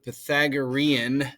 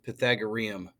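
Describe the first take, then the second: First: The word ends with an N sound. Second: The word ends with an M sound. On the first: The speaker calls it right. "It has an N on the end" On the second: The speaker calls it wrong. "Some people mispronounce it as Pythagoreum"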